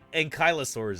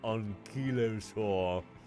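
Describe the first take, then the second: First: It is said with an American pronunciation. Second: It is said with a British pronunciation.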